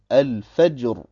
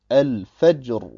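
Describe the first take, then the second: Both takes have the same delivery.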